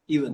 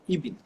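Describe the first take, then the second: First: The word is said as standard 'even'. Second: The word is said to sound like 'ibn'.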